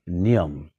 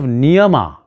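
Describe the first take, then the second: First: The word ends with a consonant. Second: The word ends with a final vowel. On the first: The speaker calls it right. "start saying niyam" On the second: The speaker calls it wrong. "Instead of niyama"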